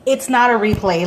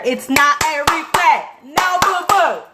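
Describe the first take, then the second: First: Loud, firm correction at usual pitch; firm retort. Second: Louder, higher, drawn-out mock scolding; exasperated retort. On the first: Retold or imitated. Correcting people who dismiss the new Grinch, firm. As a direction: set them straight firmly. Retold retort to everyone, first take. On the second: Telling off people who dismiss the movie, exasperated. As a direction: build to a high, loud telling-off. Retold retort, escalated second take.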